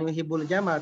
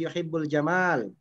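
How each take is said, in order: First: The second vowel of jamal is short. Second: The second vowel of jamal is long. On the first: The speaker calls it wrong. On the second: The speaker calls it right. "tapi ... setelah mim ada alifnya"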